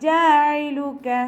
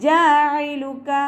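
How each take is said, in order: The two takes are said the same way.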